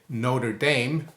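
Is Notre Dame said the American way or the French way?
American. It is said with an American pronunciation. "as the Americans would say"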